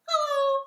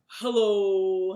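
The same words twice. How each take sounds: First: It is said in a very high voice. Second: It is said in a very low voice.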